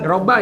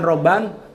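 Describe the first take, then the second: First: The word ends on a plain vowel. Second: The word ends with an added n sound. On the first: The speaker calls it right. "robba ya" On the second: The speaker calls it wrong. "bukan robban"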